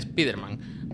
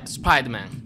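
First: It is pronounced with Spanish sounds, as spelled. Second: It is pronounced with English sounds. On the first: This is the customary name used in Spain. The speaker calls it right. "Igual que Spider-Man se dice" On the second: This is the original English pronunciation. The speaker calls it wrong. "no se dice Spider-Man"

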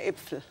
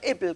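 First: The middle consonant is a pf sound. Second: The middle consonant is a plain p sound. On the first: This is the standard form. "kein Äpfel" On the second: This is the regional dialect form. "man ist nach Äppel"

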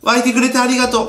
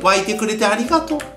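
First: It is said in a plain, casual way. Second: It is said with heartfelt, warm gratitude.

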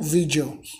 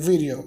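First: The middle consonant is a full D sound. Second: The middle consonant is a quick R-like tap. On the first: The speaker calls it wrong. "não video" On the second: The speaker calls it right. "a pronúncia dessa palavra fica com o som de R"

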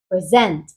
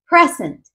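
First: The stress is on the second syllable. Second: The stress is on the first syllable. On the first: It is a verb. "si le colocamos la acentuación en la última sílaba, es decir, en la segunda, se convierte en un verbo" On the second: It is a noun. "Si colocamos la acentuación en la primera sílaba, se convierte en un sustantivo"

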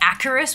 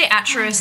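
First: The middle consonant is a k sound. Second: The middle consonant is a ch sound. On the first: "sometimes I say like Acarus with like like k" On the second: "sometimes I say Atris"

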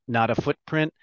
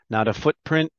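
No difference in how they are said.

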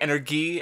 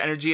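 First: It is pronounced with Japanese-style sounds. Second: It is pronounced the usual English way. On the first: The speaker calls it wrong. "it's like energy, I think" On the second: The speaker calls it right. "instead of energy"

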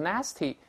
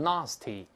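First: It is said in an American accent. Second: It is said in a British accent. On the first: "美音读成nasty" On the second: "英式发音读成nasty"

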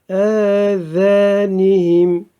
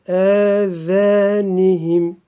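Both takes have the same delivery.

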